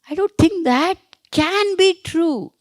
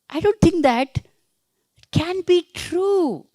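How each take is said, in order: First: The stress falls on the word can. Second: The stress falls on the word can.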